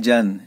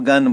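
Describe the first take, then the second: First: The word begins with a 'j' sound. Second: The word begins with a hard 'g' sound. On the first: The speaker calls it wrong. "इसको कोई नहीं बोलता है जन" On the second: The speaker calls it right. "इसको गन बोलते हैं"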